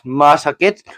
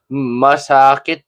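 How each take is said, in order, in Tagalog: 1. Nasa unang pantig ang diin. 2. Nasa ikalawang pantig ang diin. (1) "an acute accent on the first syllable" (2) "masakit has an acute accent on the second syllable"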